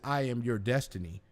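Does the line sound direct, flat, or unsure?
flat. It is said flatly, without conviction. The claim is not convincing. "you'll listen to me and be like, okay, I, I guess you are"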